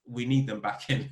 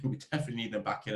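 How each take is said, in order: First: Said in the usual way. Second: Laughing it out quickly. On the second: Real, not acted. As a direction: chuckle through the repeat. Repeated line, laughs, faster.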